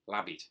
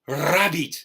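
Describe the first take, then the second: First: The word begins with an L sound. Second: The word begins with an R sound. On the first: "who tried to say rabbit would say labbit" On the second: "the teacher was sort of, with the best of intentions, would say to her"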